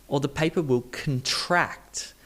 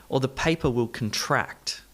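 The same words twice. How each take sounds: Both takes have the same delivery.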